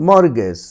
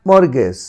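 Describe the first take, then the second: The two takes are said the same way.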